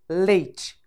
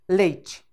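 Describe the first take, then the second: First: It is said naturally, in two syllables. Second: It is said naturally, in two syllables.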